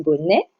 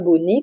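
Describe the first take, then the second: First: The final vowel is an open e sound. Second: The final vowel is a closed e sound. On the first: The speaker calls it right. "à bien prononcer, mais bonnet" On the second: The speaker calls it wrong. "pas bonnet comme on fait souvent"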